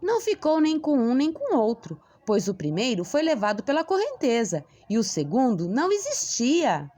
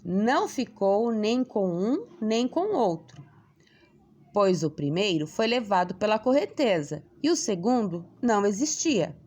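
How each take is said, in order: First: It is read in an enthusiastic tone. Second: It is read in a serious tone.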